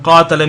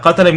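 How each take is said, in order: First: "qatala" said as qaa-tala; long first vowel. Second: "Qatala" with all vowels short; short first vowel. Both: Shown as a demonstration. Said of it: "addition of an alif in the middle".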